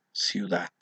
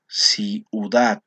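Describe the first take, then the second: First: Said in the usual way. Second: CIUDAD stretched out slowly in separate syllables. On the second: Shown as a demonstration. Teacher showing the class a diphthong, syllable by syllable. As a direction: break "Ciudad" into slow, distinct syllables. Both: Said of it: "en la misma sílaba".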